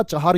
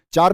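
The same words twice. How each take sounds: First: चार opened into two syllables, 'cha-haar'; correct full form. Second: चार as one syllable, 'chaar'; wrong short form. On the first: Teacher correcting the word, चार said as 'chahaar'. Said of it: "चार ही होता है". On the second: Teacher rejecting the mistake, चार in one syllable. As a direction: say चार without any H. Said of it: "चार नहीं होता". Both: Shown as a demonstration.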